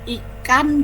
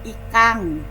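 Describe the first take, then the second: First: The word ends in an n sound. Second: The word ends in an ng sound.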